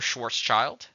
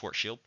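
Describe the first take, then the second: First: The name is said with English-style sounds. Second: The name is said with German-style sounds.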